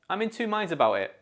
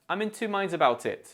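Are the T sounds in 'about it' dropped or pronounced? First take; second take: dropped; pronounced. First: The T sounds in 'about it' are dropped. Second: The T sounds in 'about it' are pronounced. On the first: "And now without the T" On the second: "Let's say it together now with the T"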